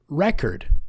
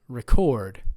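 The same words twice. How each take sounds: First: The stress is on the first syllable. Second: The stress is on the second syllable.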